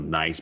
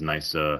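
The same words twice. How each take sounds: First: The word ends on its final consonant. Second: An extra vowel is added after the final consonant.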